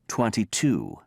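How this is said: The T in twenty is clearly pronounced. "Brits say"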